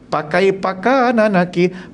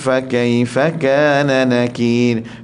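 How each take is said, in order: First: The first word begins with a p sound. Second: The first word begins with an f sound. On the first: The speaker calls it wrong. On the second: The speaker calls it right.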